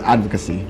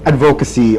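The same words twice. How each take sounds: First: It is said the standard way. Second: It is said the common Filipino way. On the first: "right way of saying the word is advocacy" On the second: "how do other people say it? ... it's a proper Filipino way of saying it"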